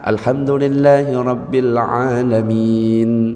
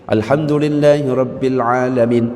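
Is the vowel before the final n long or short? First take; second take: long; short. First: The final vowel is drawn out long. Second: The final vowel is cut short. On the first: The speaker calls it right. "sebenarnya kayak gitu" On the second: The speaker calls it wrong. "Nah itu yang salah"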